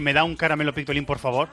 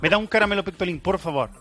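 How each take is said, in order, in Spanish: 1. Se dice con acento español normal. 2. Se dice con un acento portugués fingido.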